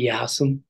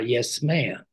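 First: It is drawled and run together into one word. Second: It is said crisply, with every sound clear. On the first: The speaker is playing the expected subservient role. "you had to do the draw thing you were taught" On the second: The speaker is not playing the expected subservient role. "saying properly"

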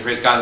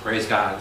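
First: It is said loudest of all. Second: It is said louder, at moderate volume.

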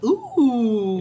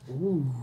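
First: It is said imitating her grandson's voice. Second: It is said in her natural voice.

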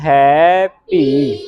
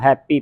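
First: The middle consonant is a breathy bh sound. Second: The middle consonant is a plain p sound. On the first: The speaker calls it right. "ਭੱਬੇ ਦੀ ਆਵਾਜ਼ ਉਚਾਰਨ ਕਰਨੀ ਹੈ" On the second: The speaker calls it wrong. "ਹੈਪੀ ਪੱਪੇ ਦੀ ਆਵਾਜ਼ ਨਿਕਲੀ ਪਈ ਨਾ"

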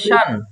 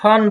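First: The ending sounds like 'shan' with an open vowel. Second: The ending sounds like 'shon' with a rounded vowel. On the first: The speaker calls it right. "এটা হবে শান" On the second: The speaker calls it wrong. "এটা কিন্তু আমরা অনেক ক্ষেত্রে শন বলি, আসলে শন না"

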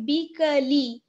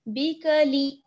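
No difference in how they are said.

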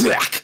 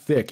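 First: The word's final sound is exaggerated and drawn out. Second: The word is said plainly with a short ending. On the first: The speaker calls it right. "thick with four C's" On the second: The speaker calls it wrong. "not thick with one or two C's"

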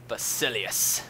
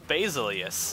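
First: The name does not begin like the herb basil. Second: The name begins like the herb basil.

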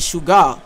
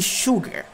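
First: The word is said with a French accent. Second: The word is said with an American accent. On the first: The speaker calls it wrong. "son français a sorti. Ou dit sugar" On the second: The speaker calls it right. "Mais accent américain dit sugar"

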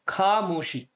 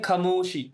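First: The stress falls on the first syllable. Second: The first syllable does not carry the stress. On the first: This is how the word is said in everyday speech. The speaker calls it right. "Usually you are saying खामोशी" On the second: This is how the word is articulated when sung. The speaker calls it wrong. "गाने में you are saying खामोशी"

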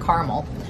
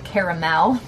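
First: The word is said in a plain way. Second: The word is said in a fancy way. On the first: This is the regular everyday way. "just regular whatever, caramel" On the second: The speaker wants to sound extra and fancy. "If you want to be a little extra and a little fancy, you say caramel"

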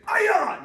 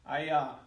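First: The yell is forceful and comes from deep down. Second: The yell is weak and comes from the throat. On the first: The speaker calls it right. "from your key, from your core. Here" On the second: The speaker calls it wrong.

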